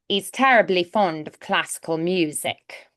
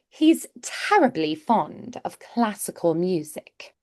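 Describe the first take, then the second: First: The h sound of 'he's' is dropped. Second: The h sound of 'he's' is pronounced. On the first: "you will hear E's instead without that H there" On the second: "Or sometimes they might do"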